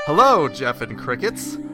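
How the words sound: It is read in a put-on fun voice.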